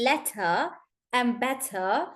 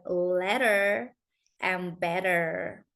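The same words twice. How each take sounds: First: Slow letter and better with crisp T, no final R; British T, silent R. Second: Slow letter and better as "ledder", "bedder", strong R; American rolled R. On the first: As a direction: end letter and better in "tuh". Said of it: "So in British". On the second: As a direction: roll through letter and better with flapped T. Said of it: "because they roll their L R T". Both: Shown as a demonstration.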